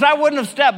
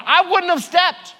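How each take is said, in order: First: I punched, rest falling; stress on I. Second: Slow, wouldn't leaned on hard; stress on wouldn't. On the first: Pastor repeats to congregation, now stressing I. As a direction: lean on the word I. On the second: Pastor admits to congregation he'd never step, stressing wouldn't. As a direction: hit wouldn't slowly. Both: Shown as a demonstration. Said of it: "I'll be honest".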